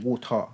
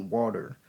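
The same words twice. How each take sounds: First: It is said in a non-American accent. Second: It is said in an American accent. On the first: This is how the speaker's own group says it. "we might say water" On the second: This is how people in the US say it. "they might say water"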